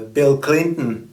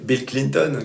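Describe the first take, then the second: First: The name is said with an American accent. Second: The name is said with a French accent. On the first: "les Américains vont prononcer" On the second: "comme on disait en français"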